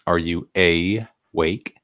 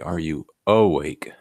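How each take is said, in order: First: The first vowel of awake is a full 'ay'. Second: The first vowel of awake is a reduced 'uh'. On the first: The speaker calls it wrong. "Not many people say that" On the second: The speaker calls it right. "Most people say"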